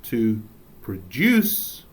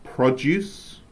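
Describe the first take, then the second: First: "produce" slowly as pruh-DOOSS, second syllable stressed; "produce" with weak first syllable, rising DOOSS; verb stress. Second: "Produce" as PROD-yooss, stress on the first syllable; "Produce" said as the noun, first syllable strong. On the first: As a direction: lean hard on the end of "produce". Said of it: "that is a verb". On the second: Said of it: "is a noun". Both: Shown as a demonstration.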